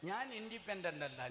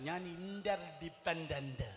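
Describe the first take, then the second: First: Said in the usual way. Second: Slow, drawn-out ഞാൻ ഇന്റർഡിപെൻഡന്റ്, each syllable held; slow declaration. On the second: Shown as a demonstration. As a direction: say ഇന്റർഡിപെൻഡന്റ് slowly and deliberately. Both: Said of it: "ഒരിക്കൽ കൂടെ".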